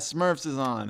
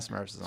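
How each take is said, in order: First: It is said with excited enthusiasm. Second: It is said with flat indifference. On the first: The show is something to be thrilled about. "I wouldn't say Smurfs was like something I was like, fuck yeah" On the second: The show is just okay. "It was like, eh"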